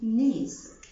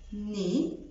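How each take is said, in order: First: The final consonant is pronounced. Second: The final consonant is silent. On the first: The speaker calls it wrong. "مش بقول نيس" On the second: The speaker calls it right. "بقول ني"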